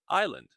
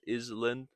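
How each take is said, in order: First: The S in the middle is silent. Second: The S in the middle is pronounced. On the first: The speaker calls it right. "but island, silent S" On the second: The speaker calls it wrong. "not Iceland or Island"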